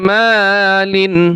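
The word is said smoothly as one unit. "একসাথে"

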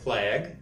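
The word is said with an American-accented vowel. "Американская – флаг"

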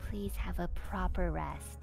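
It is said quietly in a smooth voice.

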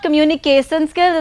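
It is said with a regional accent. The speaker calls it wrong. "it's not communication skills"

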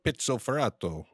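The name is said with a fancy Italian flourish.

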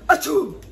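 The sneeze is loud, rough and manly.

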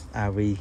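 The letters are read with English letter names. This is how people in America say it. "Ở bên này gọi là"

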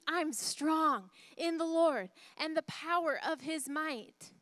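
It is yelled loudly.

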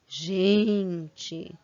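It is said with amazed, incredulous intonation. The speaker is seeing something unbelievable. "quando eu tô vendo assim uma coisa inacreditável"

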